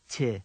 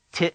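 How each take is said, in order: First: Ti with the vowel left to fade out; open ending. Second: Ti chopped off sharply at the end; abrupt cut-off. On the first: Teacher contrasts two words, Ti meaning vegetation left open. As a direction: let Ti end softly without a stop. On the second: Teacher contrasts two words, ti meaning to repair cut short. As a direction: stop the vowel of ti short. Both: Shown as a demonstration. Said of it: "abrupt cutting off of a sound".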